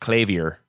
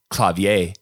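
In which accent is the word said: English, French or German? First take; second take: English; French. First: It has a harsh English accent. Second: It has a French accent. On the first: "the English, which is all harsh" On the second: "The French, which is probably the most correct way of saying it"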